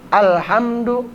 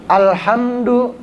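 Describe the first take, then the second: The two takes are said the same way.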